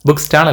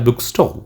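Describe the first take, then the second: First: The vowel in stall sounds like 'aa'. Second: The vowel in stall sounds like 'aw'. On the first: The speaker calls it wrong. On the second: The speaker calls it right.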